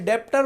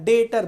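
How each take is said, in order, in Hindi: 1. t से पहले 'b'/'p' की आवाज़ सुनाई देती है। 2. t से पहले कोई 'b' की आवाज़ सुनाई नहीं देती। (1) "डेप्टर मत बोलना" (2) "डेटर बोलना ... बी साइलेंट है"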